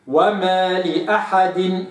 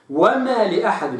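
First: وما لأحد said very slowly and clearly; slow careful وما لأحد, correct vowels; correct reading. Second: وما لأحد said with the wrong vowel; wrong reading. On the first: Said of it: "وإنما هي". (وما لأحد بنطق صحيح بطيء جدا) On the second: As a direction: show the common mistake in وما لأحد. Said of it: "لا أقرأها". (اللحن الشائع في وما لأحد) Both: Shown as a demonstration.

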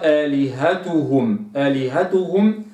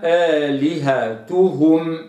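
First: آلهتهم with the u leaned toward o; tilted damma. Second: آلهتهم slow, pure u on each damma; correct recitation. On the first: Teacher demonstrates the error of tilted damma. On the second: Teacher models the word for students, slow and exact. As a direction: recite آلهتهم slowly with no tilt. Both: Shown as a demonstration. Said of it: "هذه إمالة الضم".

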